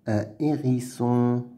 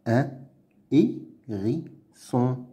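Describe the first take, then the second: First: Said in the usual way. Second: "Un hérisson" slowly as "un", "hé", "ri", "sson"; pauses between all syllables of "Un hérisson". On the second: Shown as a demonstration. Teacher sounding out words to read, "Un hérisson" in slow pieces. Reading drill, split then blended.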